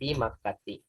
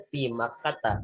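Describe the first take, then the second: First: The last word ends in an 'i' vowel. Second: The last word ends in an 'a' vowel. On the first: The speaker calls it wrong. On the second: The speaker calls it right. "maka dibacanya"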